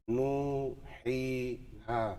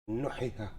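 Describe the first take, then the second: First: The long vowels are held for their natural length. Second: The long vowels are cut short. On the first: The speaker calls it right. "it's a natural mud" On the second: The speaker calls it wrong. "You read it without the mud, it is impossible"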